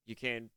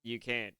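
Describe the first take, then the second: No difference in how they are said.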